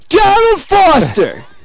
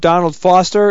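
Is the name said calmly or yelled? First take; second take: yelled; calm. First: The name is yelled loudly. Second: The name is said at a calm, normal volume. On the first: "I'll yell it if you want" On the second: "That's it?"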